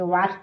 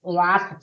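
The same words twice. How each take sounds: First: "वाच" with a plain final ch; silent-t reading of "वाच". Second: "वाच" drawn out with a separate t; T sounded. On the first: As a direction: say "वाच" with no separate t. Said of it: "टी silent है". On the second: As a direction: say "वाच" as waat-cha, t held. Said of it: "वाच से नहीं". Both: Shown as a demonstration.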